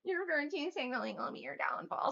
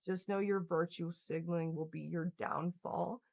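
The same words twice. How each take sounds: First: Higher sing-song mockery of "Your virtue signaling will be your downfall"; mocking parody. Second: Said in the usual way. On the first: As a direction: parrot the comment to ridicule it. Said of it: "mocking repeat of the comment". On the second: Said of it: "reading a viewer's comment".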